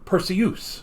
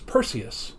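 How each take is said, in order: First: The name ends with a 'syoos' sound like Zeus. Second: The name ends with a separate 'see-us' sound. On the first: "pronounced it as Perseus because it rhymes with Zeus" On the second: "they both mentioned the uh, man's name as Perseus"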